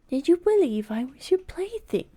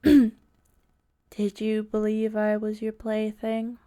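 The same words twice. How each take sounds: First: It is read in a natural voice. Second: It is read in a harsh, flat voice.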